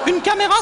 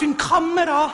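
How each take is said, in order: First: It is said with a plain French accent. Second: It is said with a guttural Swiss German accent.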